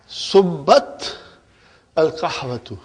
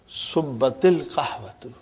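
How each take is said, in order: First: No linking vowel is heard between the words. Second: A short 'i' vowel links the two words.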